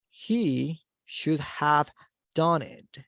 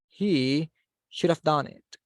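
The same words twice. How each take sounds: First: The word 'have' is said in full. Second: The word 'have' is reduced to a short 'of'.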